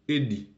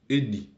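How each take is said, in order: First: The pitch falls at the end of the verb. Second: The pitch falls at the end of the verb.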